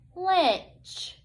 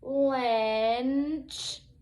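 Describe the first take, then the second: First: The word is said quickly, as one unit. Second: The word is said slowly, sounds drawn out. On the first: It is said as a real word. "say it quickly like a real word" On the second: The separate sounds are being blended. "listen to me blend it together slowly"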